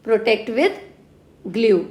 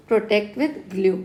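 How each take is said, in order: First: Said in the usual way. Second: Slow mnemonic drill. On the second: Shown as a demonstration. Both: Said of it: "with glue बोल दो इसको".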